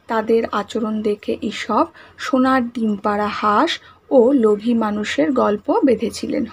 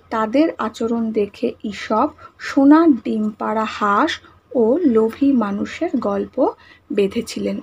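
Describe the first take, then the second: First: Said in the usual way. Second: Slow, word by word for the class to write; slow dictation. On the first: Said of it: "মনে থাকবে". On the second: Shown as a demonstration. Teacher dictating the answer to pupils, slowly. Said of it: "তাহলে আমরা কি লিখব?".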